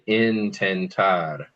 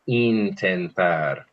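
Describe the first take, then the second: First: The first vowel is a short English i. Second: The first vowel is a long ee sound. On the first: The speaker calls it wrong. "we're so tempted to say intentar" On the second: The speaker calls it right. "but it's intentar"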